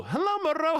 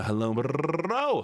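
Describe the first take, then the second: First: Moreau greeted in a much higher voice; high sing-song. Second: Said in the usual way. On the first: Shown as a demonstration. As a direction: lift the whole greeting up high and playful.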